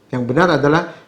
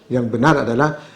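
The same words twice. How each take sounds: Both takes have the same delivery.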